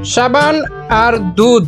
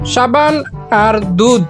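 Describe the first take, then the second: The two takes are said the same way.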